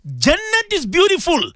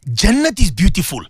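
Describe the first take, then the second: First: Much higher, with a long ringing fall on beautiful; fervent preaching. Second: Said in the usual way. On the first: Acted. Radio host swearing to listeners that paradise is beautiful, fervent and high. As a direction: lift Jannat is beautiful high and let beautiful ring down. Preacher repeating the line with fervour.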